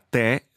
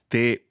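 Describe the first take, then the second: First: The vowel is an open e sound. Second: The vowel is a closed e sound. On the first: It is the drink, tea. "si pronuncia con la E aperta" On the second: It is the pronoun meaning you. "si pronuncia con la E chiusa"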